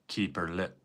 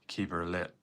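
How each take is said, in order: First: It is said in an imitated Northern Irish accent. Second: The same.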